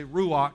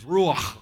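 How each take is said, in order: First: Said in the usual way. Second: Ruach ending in a rasping back-of-the-throat "kh"; "ruach" with a strong guttural final sound; throaty Hebrew ending. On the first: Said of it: "you don't just say ruach". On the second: Shown as a demonstration. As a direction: scrape the end of "ruach" like clearing a stuck corn kernel. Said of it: "kernel of corn stuck in the back of your throat".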